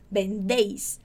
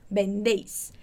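Both takes have the same delivery.

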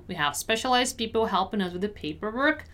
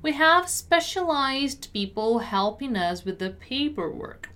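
First: Brisk, linked-up read; quicker repeat. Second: Careful word-by-word teaching read; measured pronunciation model. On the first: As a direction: say it at conversational speed. Teacher repeats at quicker pace. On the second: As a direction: articulate each word unhurriedly. Teacher models sentence slowly first. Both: Shown as a demonstration.

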